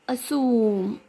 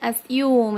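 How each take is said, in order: First: The vowel is a plain 'oo' without 'y'. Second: The vowel is 'yoo' with a 'y' glide. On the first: "assume in American" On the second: "assume in British"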